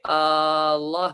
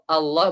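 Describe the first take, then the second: First: The word is drawn out with a lengthened vowel. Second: The word is said at normal length. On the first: The speaker calls it wrong. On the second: The speaker calls it right.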